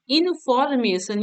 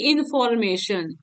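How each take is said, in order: First: information slowed, in three parts इन, फॉर, mason; broken into syllables. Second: Said in the usual way. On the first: Shown as a demonstration. Teacher showing students a three-syllable word, broken into syllables. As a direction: sound out information slowly, part by part. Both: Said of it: "ये three syllable हो गया".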